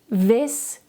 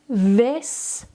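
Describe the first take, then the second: First: The word is said a little faster. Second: The word is said slowly. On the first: "a little bit faster" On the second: "Repeat after me slowly"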